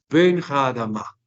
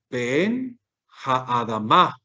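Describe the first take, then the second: First: Both words run together with one stress at the end. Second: Each word is said separately with its own stress. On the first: "como una unidad fonética" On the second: "en cada palabra había un acento"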